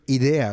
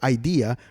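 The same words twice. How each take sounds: First: The word is pronounced with Spanish sounds. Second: The word is pronounced with English sounds. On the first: The speaker calls it wrong. "my mind keeps saying idea" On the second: The speaker calls it right. "it was hard for me to say idea"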